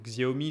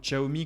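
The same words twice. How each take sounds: First: The name is said with French-style sounds. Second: The name is said with its original Chinese sounds. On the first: This makes the name easier for a wide audience. "je appelle cette marque Xiaomi" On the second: This is the name's official pronunciation. "se prononce théoriquement"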